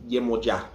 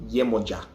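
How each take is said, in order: No difference in how they are said.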